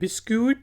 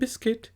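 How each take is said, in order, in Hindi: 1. k के बाद 'yoo' आवाज़ आती है। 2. k के बाद कोई 'yoo' आवाज़ नहीं आती। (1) "ये बिस्क्यूट आप कभी नहीं कहते" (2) "आप कहते हैं बिस्किट"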